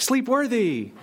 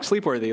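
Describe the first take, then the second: First: It is said in an enthusiastic, approving tone. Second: It is said in a dismissive, bored tone. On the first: The thing is really great. "it's really great" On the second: The thing is so dull one could sleep through it. "like we could sleep through them"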